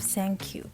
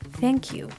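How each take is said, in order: First: It begins with an s-like sound. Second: It begins with a soft th sound. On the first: The speaker calls it wrong. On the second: The speaker calls it right.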